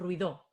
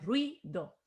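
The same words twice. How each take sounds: First: The stress is on the second syllable. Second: The stress is on the first syllable. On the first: The speaker calls it wrong. "No decimos ruido" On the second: The speaker calls it right. "decimos ruido ... si tenemos la fuerza en la sílaba dos, es una llana"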